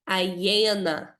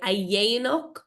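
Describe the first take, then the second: First: The word ends on a vowel. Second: The word ends with a guttural consonant. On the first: "or you can say a dhéana. My Irish accent now really comes out there" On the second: "you can say a dhéanach"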